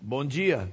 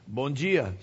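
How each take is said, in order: First: The d in dia sounds like a j. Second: The d in dia sounds like a j.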